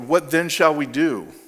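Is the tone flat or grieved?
flat. It is said flatly, without emotion.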